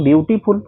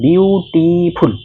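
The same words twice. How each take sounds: First: Said in the usual way. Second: "বিউটিফুল" very slowly, split into বিউ-টি-ফুল; "বিউটিফুল" in three separate, drawn-out beats; syllable by syllable. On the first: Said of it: "এটাকে তুমি একবারে উচ্চারণ করতে পারছো না". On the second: Shown as a demonstration. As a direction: stretch out each syllable of "বিউটিফুল". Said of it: "two বা three সিলেবলে তোমাকে কিন্তু উচ্চারণ".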